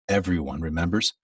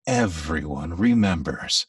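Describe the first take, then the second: First: It is said flatly, without nostalgic flow. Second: It is said warmly, with nostalgic, musical flow.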